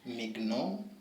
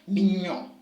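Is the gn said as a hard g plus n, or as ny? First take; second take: hard g; ny. First: The gn is a hard g then n. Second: The gn is one ny sound. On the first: The speaker calls it wrong. "That's not mignon or something of the sort" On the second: The speaker calls it right. "It becomes mignon"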